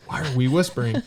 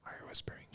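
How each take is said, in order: First: Said in the usual way. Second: Imitating a barely audible whispered question; tiny, voiceless puzzled whisper. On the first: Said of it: "we're all whispering". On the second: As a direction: whisper it, hardly any sound at all. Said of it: "like, all whispering".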